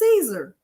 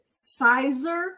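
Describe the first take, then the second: First: The name is said like 'Caesar'. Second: The name is said like 'sizer'. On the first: The speaker calls it right. "it's Caesar, like a Caesar salad" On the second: The speaker calls it wrong. "I used to pronounce it Sizer when I first got started"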